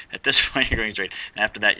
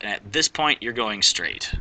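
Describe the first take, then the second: First: Louder, with a laugh on "this"; laughing correction. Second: Said in the usual way. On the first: Real, not acted. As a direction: fix the slip with a laugh and push "this" out firmly. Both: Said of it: "Sorry, what did I say?".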